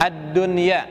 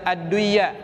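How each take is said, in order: First: The n is pronounced clearly before the y. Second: The n merges into the following y. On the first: The speaker calls it right. "dibacanya tetap izhar" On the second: The speaker calls it wrong. "tidak dibaca"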